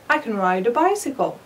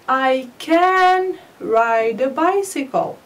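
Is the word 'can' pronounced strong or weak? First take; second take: weak; strong. First: Can is weak and linked to neighbouring words. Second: Can is strong and separated from neighbouring words. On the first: The speaker calls it right. "نطقتها ضعيفة. ووصلتها بالكلمة التي قبلها I والتي بعدها ride" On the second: The speaker calls it wrong. "I didn't say"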